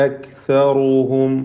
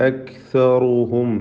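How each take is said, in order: No difference in how they are said.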